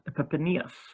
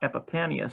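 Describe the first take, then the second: First: The name ends with an 'eez' sound. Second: The name ends with an 'ee-us' sound. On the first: The speaker calls it right. "it's Epiphanius" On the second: The speaker calls it wrong. "so it's not Epiphanius"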